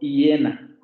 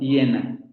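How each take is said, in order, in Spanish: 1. El primer sonido no es una semiconsonante palatal. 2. El primer sonido es una semiconsonante palatal. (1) "tampoco estoy pronunciando hiena" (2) "Esa es esta semiconsonante"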